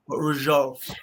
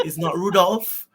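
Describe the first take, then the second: First: Rudolph with a French zh sound, falling at the end. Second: Said in the usual way. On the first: Shown as a demonstration.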